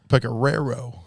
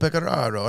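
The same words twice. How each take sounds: First: The first R is said plainly, without emphasis. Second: The first R is said with clear emphasis. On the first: The speaker calls it wrong. "we kept saying" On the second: The speaker calls it right. "you emphasize the first R"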